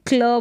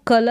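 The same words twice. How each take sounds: First: क्ल with k running straight into l; no vowel between the sounds in क्ल; half-k blend. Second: कल with a vowel between k and l; wrong full-k pronunciation. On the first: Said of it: "आधा क इसका उच्चारण". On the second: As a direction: open up कल as ka-la, unblended. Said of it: "कल नहीं बोले". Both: Shown as a demonstration.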